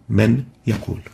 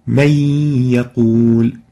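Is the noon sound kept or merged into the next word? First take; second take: kept; merged. First: The noon is clearly heard before the ya. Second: The noon merges into the following ya sound. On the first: The speaker calls it wrong. "instead of" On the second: The speaker calls it right. "So it's pronounced as"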